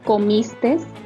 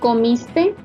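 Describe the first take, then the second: First: The word ends with an added s sound. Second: The word ends in a vowel, no s. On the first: The speaker calls it wrong. "la forma incorrecta de decir y escribir" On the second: The speaker calls it right. "su forma correcta es"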